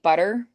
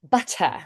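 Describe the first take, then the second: First: The middle consonant sounds soft, like a D. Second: The middle consonant is a crisp, clear T. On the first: "more of like lazy and more of a D" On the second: "A nice clear t"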